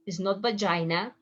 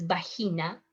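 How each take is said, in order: First: Vagina with an English dzh sound, ba-JAI-na; wrong English way. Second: Vagina with a soft breathy h, ba-HEE-na; Spanish pronunciation. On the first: Teacher shows the wrong English way to say vagina. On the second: Teacher gives the right Spanish way to say vagina. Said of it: "it's vagina". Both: Shown as a demonstration.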